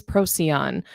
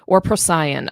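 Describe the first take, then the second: First: Procyon said as PRO-see-on; first pronunciation variant. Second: Procyon said as pro-SIGH-on; alternative pronunciation. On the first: Teacher introducing a new star, Procyon said "PRO-see-on". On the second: Teacher offering another way to name the star, Procyon said "pro-SIGH-on". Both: Shown as a demonstration. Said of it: "heard it pronounced multiple ways".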